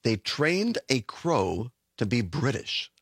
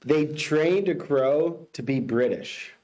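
First: Slow, lower echo of "They trained a crow to be British"; slow repeat. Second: Slow, deliberate headline delivery; slow headline read. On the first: Co-host echoes the headline slowly and lower. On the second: Host reads the headline to the co-host slowly. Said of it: "give you the headline". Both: Shown as a demonstration.

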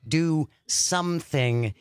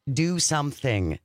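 First: "Do something" drawn out at half pace; slow emphasis. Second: Said in the usual way. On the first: Real, not acted. Host urges exhausted listeners to "Do something", slowly and emphatically. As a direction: stretch "Do something", a beat on each word.

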